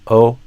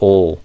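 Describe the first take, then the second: First: It ends in a plain 'o' vowel. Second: It ends in a dark L sound. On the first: The speaker calls it wrong. "instead of a O" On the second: The speaker calls it right. "instead I do ol"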